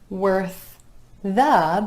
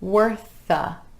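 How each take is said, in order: First: The two words are said separately. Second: The two words are linked together.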